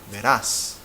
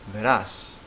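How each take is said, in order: First: The stress is on the last syllable. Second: The same.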